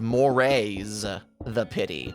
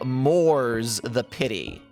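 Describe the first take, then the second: First: The first word is said as two syllables. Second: The first word is said as one syllable. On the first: The speaker calls it wrong. "the bot pronounces it weird. It goes morays the pity" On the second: The speaker calls it right. "it's supposed to say moors the pity"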